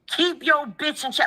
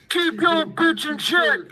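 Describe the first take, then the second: First: It is read in the speaker's plain voice. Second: It is said in an imitation of Wack.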